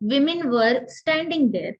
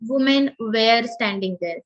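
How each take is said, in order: First: It sounds like 'wimmen wur'. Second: It sounds like 'woomen wear'. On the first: The speaker calls it right. "सो मीच म्हटलं" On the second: The speaker calls it wrong. "हे ऐकायला कसं वाटलं?"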